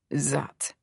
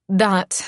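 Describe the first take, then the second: First: Spat. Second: Said in the usual way. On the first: Acted. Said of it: "he spits". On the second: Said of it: "Yes, that".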